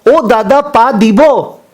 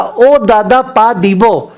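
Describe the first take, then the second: First: Higher, slow mock Bengali plea; Bengali calling out. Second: Mock louder call. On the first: Bengali passenger asks the Punjabi to move his hand, slow high call. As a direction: drag it out, asking him to move. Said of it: "तो बंगाली वापस से बोला". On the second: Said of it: "Bengali और जोर से चिल्ला के बोला".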